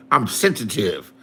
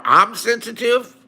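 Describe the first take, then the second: First: Low, falling mock admission; sarcastic echo. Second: Slow, disbelieving question; incredulous echo. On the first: Answering a chatter's accusation, low sarcastic echo. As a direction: drop it low, as if conceding. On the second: Answering Liz's accusation in chat, incredulous echo. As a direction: throw the word back as a question. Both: Real, not acted.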